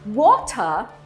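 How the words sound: It is said with a British accent. "No inglês britânico"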